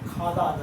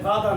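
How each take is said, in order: First: The first consonant is an aspirated kh sound. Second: The first consonant is a plain g sound. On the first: The speaker calls it right. "এটা কি হবে খাদা" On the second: The speaker calls it wrong. "এটা গাদা না"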